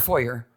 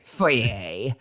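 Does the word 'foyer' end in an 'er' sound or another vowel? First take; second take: er sound; other vowel. First: The word ends with an 'er' sound. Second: The word ends without an 'er' sound. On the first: "It ends with E R" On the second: "not a foyer"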